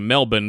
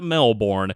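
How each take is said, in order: First: The name is said the local Australian way. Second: The name is said a non-local, non-Australian way. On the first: The speaker calls it right. "That is indeed the uh, preferred way of pronouncing the city's name" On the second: The speaker calls it wrong. "not Melbourne"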